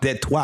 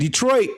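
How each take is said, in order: First: It is said with a French-style pronunciation. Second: It is said with the usual English pronunciation.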